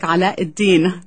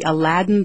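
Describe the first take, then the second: First: The name is given an Arabic pronunciation. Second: The name is given its usual English pronunciation. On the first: "or in Arabic" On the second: "go to the Aladdin Theater"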